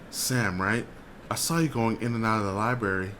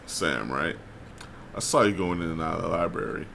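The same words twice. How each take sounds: First: It is spoken in a high, girlish voice. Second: It is spoken in a smooth, buttery voice. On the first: The speaker calls it wrong. "I was doing the girl voice" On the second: The speaker calls it right. "He said with a buttery voice"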